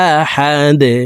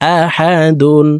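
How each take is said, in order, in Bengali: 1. শব্দটি খালি 'd' তে হঠাৎ থেমে যায়। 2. শব্দটি একটি পূর্ণ 'dun' উচ্চারণে শেষ হয়। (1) "দাল ওয়াকফের ক্ষেত্রে সাকিন করে ফেলবো" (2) "দাল দুই পেশ দুন"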